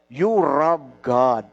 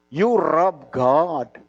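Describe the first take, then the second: First: It is said in the speaker's plain accent. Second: It is said with an imitated Japanese accent.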